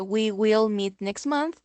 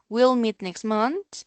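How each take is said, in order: First: The words we will are said in full. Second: The words we will are contracted to we'll.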